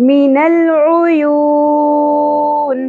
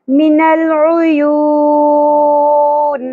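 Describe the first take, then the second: Both takes have the same delivery.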